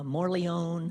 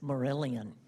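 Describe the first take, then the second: First: The name ends with a 'leone' sound. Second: The name ends with an 'ellian' sound. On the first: The speaker calls it wrong. "for years I mispronounced" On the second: The speaker calls it right. "I finally got it"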